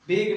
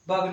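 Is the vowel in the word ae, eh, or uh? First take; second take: eh; uh. First: The vowel is an eh sound. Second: The vowel is an uh sound. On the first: "बेग नहीं पढ़ेंगे" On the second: "बग नहीं पढ़ेंगे"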